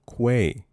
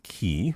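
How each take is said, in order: First: The word begins with a kw sound. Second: The word begins with a plain k sound. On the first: The speaker calls it right. "With a Q. Quay" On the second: The speaker calls it wrong. "Not key. I don't know who says key"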